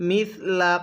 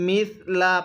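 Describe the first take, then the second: The two takes are said the same way.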